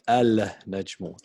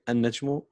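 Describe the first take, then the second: First: The word begins with a clear 'al' sound. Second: The 'l' blends into a doubled 'n' sound. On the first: The speaker calls it wrong. "We don't say al-najmu" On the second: The speaker calls it right. "so we say النجم"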